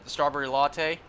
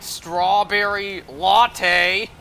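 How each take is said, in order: First: It is said at normal volume. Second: It is called out loudly.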